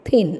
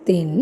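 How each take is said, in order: First: "thin" with a forceful TH onset; stressed th. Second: "thin" with a weak, unforced first sound; unstressed th. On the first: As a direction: push the first sound of "thin". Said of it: "it's th. Th sound is a little stressed sound". (ഊന്നിപ്പറഞ്ഞ th ഉള്ള thin) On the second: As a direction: drop the force from the TH in "thin". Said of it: "It's not thin". (th ഊന്നാതെ പറഞ്ഞ thin) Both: Shown as a demonstration.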